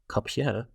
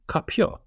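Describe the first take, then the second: First: The word ends with a 'yeh' sound. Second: The word ends with a 'yo' sound. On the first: The speaker calls it wrong. "it wouldn't be kapye" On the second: The speaker calls it right. "if it's a stressed yeah, then it's yo"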